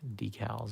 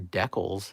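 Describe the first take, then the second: First: It is said in the speaker's usual way. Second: It is said the way Canadians say it.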